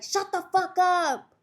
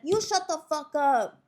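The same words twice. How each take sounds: First: Slow, high, loud imitated order; mock angry yell. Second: Higher comeback with YOU stressed; imitated angry retort. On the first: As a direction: yell it like an annoyed cellmate. Acts annoyed cellmate yelling. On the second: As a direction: throw it back, hitting YOU. Acts second inmate snapping back.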